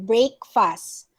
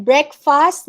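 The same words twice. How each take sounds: First: "breakfast" slowly as BRAKE-fast; wrong pronunciation. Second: "breakfast" as BREK-fast, slowly; short E at the start of "breakfast", brek; correct pronunciation. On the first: Teacher quoting the mistake, slow brake-fast. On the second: Teacher giving the right form, slow brek-fast. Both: Shown as a demonstration. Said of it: "not breakfast".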